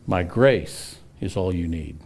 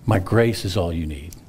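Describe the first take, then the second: First: "My grace is all you need" read slowly, weight on "grace"; slow scripture quote. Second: "My grace is all you need" repeated after a long pause, "grace" stressed; pondering repeat. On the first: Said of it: "Look what God said". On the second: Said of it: "That's not a no". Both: Acted.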